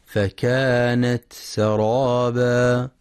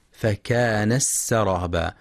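First: Slow recitation, فكانت سرابا with an aspirated t; clear ta. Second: فكانت سرابا with the t lost in a doubled s; merged ta mistake. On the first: Teacher correcting the error, slow recitation with clear t in فكانت سرابا. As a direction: release the t of فكانت before the s of سرابا. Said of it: "لإظهار التاء وهمسها". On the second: Teacher showing the error, ta merged into sin in فكانت سرابا. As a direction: run فكانت into سرابا as "fakanas-saraba". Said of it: "وعدم إدغامها مع السين، فلا يقرأ". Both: Shown as a demonstration.

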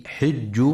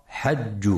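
First: حج with kasra on the ha, said hijj; correct reading. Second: حج with fatha on the ha, said hajj; the mistaken حج, ha with an a vowel; wrong reading. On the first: Tajweed teacher showing listeners the right reading, حج as hijj. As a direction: say حج as hijj, the ha with an i vowel. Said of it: "لكسر الحاء وعدم فتحها". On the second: Teacher warning listeners of the wrong reading, حج as hajj. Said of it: "فلا يقرأ حج". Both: Shown as a demonstration.

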